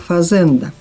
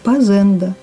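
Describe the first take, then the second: First: The word begins with an f sound. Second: The word begins with a p sound. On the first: "новое слово" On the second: "звучит в наших говорах"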